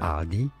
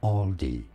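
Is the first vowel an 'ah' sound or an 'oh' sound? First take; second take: ah; oh. First: The first vowel is a clear 'ah' sound. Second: The first vowel is an 'oh' sound. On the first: It follows the original German pronunciation. "if you want to respect the German original pronunciation" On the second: It follows the common English pronunciation. "for the most common used English pronunciations"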